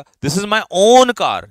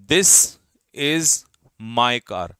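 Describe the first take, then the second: First: "own" said slow, high and loud; stress on own. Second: Said in the usual way. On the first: Shown as a demonstration. Teacher showing students how "own" adds emphasis, with "own" stressed hard. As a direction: lean hard on "own" to show it is yours alone. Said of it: "own ने उसको जोर डाल के बोला". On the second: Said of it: "फिर मैंने कहा".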